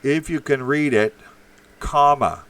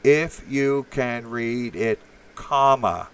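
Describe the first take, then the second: First: Loud, insistent read-out of "If you can read it, comma"; read aloud. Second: "If you can read it, comma" very slow, each word spaced, "comma" landed hard; slow emphatic reading. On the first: Host reading a chat message aloud to Red Pill, loudly. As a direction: bark the line out, comma and all. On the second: Host lecturing Red Pill on punctuation, slow and emphatic. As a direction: spell it out slowly like a lesson. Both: Shown as a demonstration. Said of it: "Put a fucking comma in".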